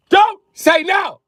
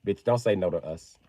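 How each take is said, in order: First: High, loud, slow-punched yell; drawn-out high outburst; exasperated shout. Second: Said in the usual way. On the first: Acted. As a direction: scream it in mock fury. Shouted repeat to daughters.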